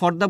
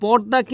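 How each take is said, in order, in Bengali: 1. প্রথম ব্যঞ্জনটি অ্যাসপিরেটেড। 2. প্রথম ব্যঞ্জনটি আনঅ্যাসপিরেটেড। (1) "ফ হচ্ছে মহাপ্রাণ" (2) "প হচ্ছে অল্প প্রাণ"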